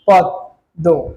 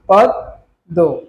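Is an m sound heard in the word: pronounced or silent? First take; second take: silent; silent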